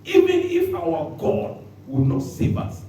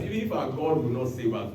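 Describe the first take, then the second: First: High, slow, drawn-out proclamation; emphatic quote. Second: Said in the usual way. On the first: Shown as a demonstration. Preacher re-reading the boys' words, slow and high. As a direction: lift each word up slowly. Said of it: "Look at that statement". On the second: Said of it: "acting the boys' reply".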